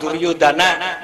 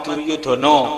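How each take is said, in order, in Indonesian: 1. Vokal akhirnya dibaca 'a'. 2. Vokal akhirnya dibaca 'o'. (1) "di Sunda mah" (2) "di Jawa mah"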